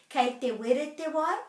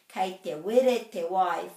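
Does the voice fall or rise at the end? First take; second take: rise; fall. First: The voice rises at the end. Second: The voice falls at the end. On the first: It asks whether the water is hot. "is the water hot?" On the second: It states that the water is hot. "full stop, the water is hot"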